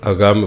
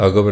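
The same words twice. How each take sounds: First: ਅਗੰਮ said as a-gamm, with a nasal ng and a doubled m; correct agamm. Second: ਅਗਮ said short and plain as a-gam, with no nasal and a single m; wrong reading agam. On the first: Preacher teaching the congregation the right ਅਗੰਮ, with nasal and doubled m. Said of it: "ਇਹਨੂੰ ਅਗੰਮ ਬੋਲੋ". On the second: Preacher warning the congregation against reading ਅਗਮ as a-gam, without nasal. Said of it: "ਅਗਮ ਨਾ ਪੜੋ". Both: Shown as a demonstration.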